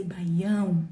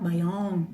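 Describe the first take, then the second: First: Baião with a nasal ão ending, bai-YÃO; Portuguese Baião, stress on the nasal ão; correct Baião. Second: Baião flattened to an English bai-ON, no nasal ending; anglicised Baião without the nasal ão; wrong Baião. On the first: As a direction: say Baião the Brazilian way, nasal final ão. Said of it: "So we say". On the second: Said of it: "and not". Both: Shown as a demonstration.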